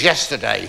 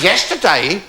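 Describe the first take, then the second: First: Said in the usual way. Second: High, rising disbelief; mock-stunned, pitched up at the end; incredulous echo. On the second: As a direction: echo it as an astonished question. Counsellor repeats her answer in disbelief.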